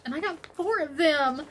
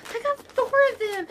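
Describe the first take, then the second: First: Said in the usual way. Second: Much higher, delighted repeat; excited squeal. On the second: Real, not acted. Vlogger realising how much yarn she has, excited squeal. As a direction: pitch it up high with glee.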